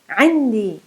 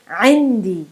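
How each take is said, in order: The two takes are said the same way.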